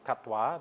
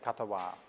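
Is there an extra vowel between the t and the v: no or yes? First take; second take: no; yes. First: The t and v are joined with no vowel. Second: An extra vowel separates the t and v. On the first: "where Pali is katwa" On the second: "in Thai pronunciation, they usually put a vowel between them"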